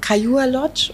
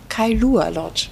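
First: "Kailua" slurred, the middle L nearly lost; unsure dialect-tinged pronunciation. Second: "Kailua" slow, every syllable separate with a clear L; careful corrected pronunciation. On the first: Real, not acted. Guest embarrassed at naming the lodge, unsure "Kailua". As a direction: say "Kailua" loosely, unsure of it, with a rising end. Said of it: "pfälzisches Dialekt durch". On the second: Shown as a demonstration. Guest repeating after the host, careful, clear "Kailua". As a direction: sound out "Kailua" carefully as kai-LU-a. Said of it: "wir versuchen's mal gemeinsam".

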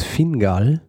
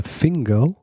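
First: "Fingal" with a clear a in the second syllable; German pronunciation. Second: "Fingal" ending like "-gol"; alternative English pronunciation. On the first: Podcaster offers the Scottish king's name to his co-host, German pronunciation. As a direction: say "Fingal" as spelt, ending in -gal. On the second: Podcaster adds a second version of the king's name, English pronunciation. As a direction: say "Fingal" as FING-gol, the second vowel rounded. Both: Shown as a demonstration. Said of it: "oder Fingal".

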